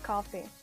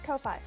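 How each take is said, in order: First: It is said like the drink, coffee. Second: It is said as two separate syllables, koh-fye. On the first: The speaker calls it right. "it's actually pronounced coffee" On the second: The speaker calls it wrong. "I pronounce it Ko-Fi"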